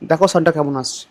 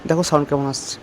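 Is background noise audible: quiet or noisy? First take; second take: quiet; noisy. First: Background noise is suppressed behind the voice. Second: Fan and traffic noise are heard behind the voice. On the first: "এখন noise cancellation on করে কথা বলছি" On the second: "মাইকের noise ক্যান্সেলেশনটা অফ করলাম"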